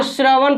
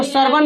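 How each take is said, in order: First: "श्रवण" read as "shra-van", r joined to the first consonant; correct cluster reading. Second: "श्रवण" misread as "sar-van", r after the first vowel; wrong reading. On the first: Teacher correcting the class's reading, joined "shra-van" pronunciation. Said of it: "इसको श्रवण पढ़ना है". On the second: Teacher showing the class what not to read, wrong "sar-van" reading. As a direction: say "श्रवण" as "sar-van", splitting the shr cluster. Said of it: "इसको श्रवण नहीं पढ़ना है". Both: Shown as a demonstration.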